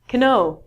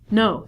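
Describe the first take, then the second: First: The word begins with a sounded K. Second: The word begins with an N sound. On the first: The speaker calls it wrong. "you would s- spell it canoe" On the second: The speaker calls it right. "We reduce this to no"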